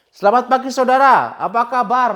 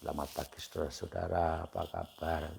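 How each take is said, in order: First: It is said in a lively, high-energy way. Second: It is said in a limp, low-energy way.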